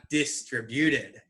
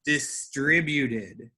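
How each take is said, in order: First: Teacher showing the wrong stress. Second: Distributed slowly with the stress on TRI; slow model, stress dis-TRI-buted; teacher's correct model. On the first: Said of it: "not distributed". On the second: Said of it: "focus on my emphasis, what syllables I emphasize". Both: Shown as a demonstration.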